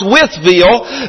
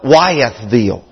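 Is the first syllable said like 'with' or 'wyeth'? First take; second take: with; wyeth. First: The first syllable sounds like 'with'. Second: The first syllable sounds like 'wyeth'. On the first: This is how locals say the name. The speaker calls it right. "properly pronounced" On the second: This is how outsiders say the name. The speaker calls it wrong. "most people around call it"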